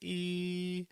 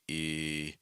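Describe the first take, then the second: First: The sound is made with a high pitch. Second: The sound is made with a low pitch. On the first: "talking up here" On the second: "do down here"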